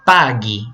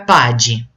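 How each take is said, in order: First: The g before i is a hard g sound. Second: The g before i is a soft j sound. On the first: The speaker calls it right. "é pague, então tem que pôr um H" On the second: The speaker calls it wrong. "vai ficar pade, e não é pade"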